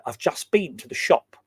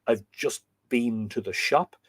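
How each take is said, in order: First: "I've just been to the shop" with stress on "been", said the English way; lightly voiced English accent, stress on "been". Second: Said in the usual way. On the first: Shown as a demonstration. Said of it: "a very English way of saying". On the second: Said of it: "the way Irish people would say".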